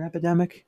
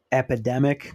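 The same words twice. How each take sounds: First: "epidemic" said as "eh-pidemic", high and questioning; "epidemic" with short e, pitch raised; checking pronunciation. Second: "Epidemic?" said as "a-pidemic", rising and unsure; unsure pronunciation. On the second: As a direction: question "Epidemic?" with short a start, rising. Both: Real, not acted. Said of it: "Am I saying that right?".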